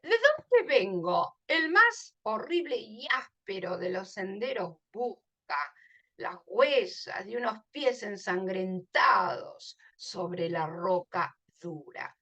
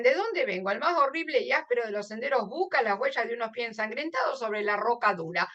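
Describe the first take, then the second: First: Poem recitation. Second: Fast, run-together reading of the verse; verse skimmed in one breath; quick read-through. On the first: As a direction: let each line fall away softly at the end. Reads the poem aloud. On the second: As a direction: rattle the lines off without pausing. Quick at-a-glance rereading of verse. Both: Acted.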